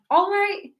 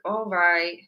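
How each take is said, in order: First: It sounds positive, with a lively pitch. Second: It sounds reluctant, with the pitch going down. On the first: The answer is a willing yes. "then this is very positive" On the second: The answer is a yes given out of obligation. "our intonation is a bit more down"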